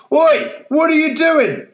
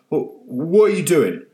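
First: Much higher, loud furious bellow; angry old man bellowing. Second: Stammering, a bit higher and puzzled; drowsy old man half waking; voiced old man still groggy; confused old man. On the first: Acted. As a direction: roar it at the fleeing girl. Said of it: "the old man bellowed". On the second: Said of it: "said the old man".

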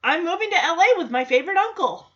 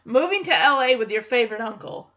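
First: Quick, upbeat imitated kid; acted confident declaration; eager announcement. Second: Mock firm echo of the kid's plan; acted dismissive repeat; firm refusal. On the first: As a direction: announce the plan brightly and fast. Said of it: "And Jackson says". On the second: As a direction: throw the words back as a no. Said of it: "He says, No, you know".

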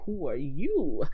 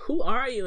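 First: "who are you?" with the weight landing on "you"; question turned back. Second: High, loud "Who are you?"; puzzled question. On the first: Rafiki turns Simba's question back on him, pointed. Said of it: "The question is, no". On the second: Simba questions the strange mandrill, puzzled. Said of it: "And he's like". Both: Acted.

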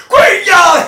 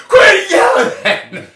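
First: Sharp, loud, much higher shout; retold shout. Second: Slow, stretched, loud and much higher yell; drawn-out shout. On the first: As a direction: snap back a full yell. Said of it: "And I go". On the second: Retold or imitated. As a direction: drag the shout out for effect. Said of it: "and I go".

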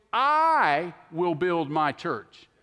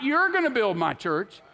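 First: A long, loud "I"; "I" drawn out and punched above the rest; stress on I. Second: "You're" pitched up, the rest falling away; high, emphatic "You're"; stress on YOU'RE. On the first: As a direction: lean hard and slow on "I". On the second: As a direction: punch "You're" as the wrong builder. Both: Acted. Contrasts who builds the church.

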